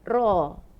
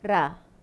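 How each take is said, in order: First: The r sound is thick and heavy. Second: The r sound is thin and light. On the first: "Kalau tebal dia akan jadi ra" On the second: "Kalau kalau tak tebal ra"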